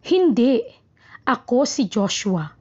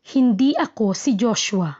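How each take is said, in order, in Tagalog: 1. May hinto kaagad pagkatapos ng hindi. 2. Ang tanging hinto ay nasa dulo. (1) "ang hinto ay pagkatapos ng hindi" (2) "nasa hulihan ng hinto"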